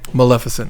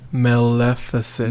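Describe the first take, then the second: First: It is said at normal speed. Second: It is said slowly.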